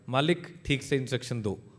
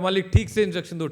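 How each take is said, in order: First: The line is said at moderate volume. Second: The line is said very loudly.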